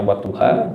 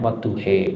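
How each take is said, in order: First: Wadduha with a clear final a; standard reading. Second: Wadduhe with the final a turned into e; dialect reading. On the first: Teacher showing Quran students the usual wadduha, plain. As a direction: say wadduha ending on an open a. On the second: Teacher showing Quran students a dialect wadduhe, a light demo. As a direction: say wadduhe, ending on e instead of a. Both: Shown as a demonstration. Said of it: "Yang A jadi E".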